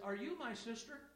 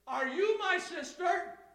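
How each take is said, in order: First: The question is said at a normal, quiet volume. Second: The question is said loudly, carrying far. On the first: "he didn't just say it like that" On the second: "I heard him in the back"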